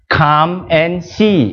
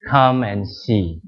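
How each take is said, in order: First: It is said warmly, with lively energy. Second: It is said flatly, with little energy. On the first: The speaker calls it right. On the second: The speaker calls it wrong.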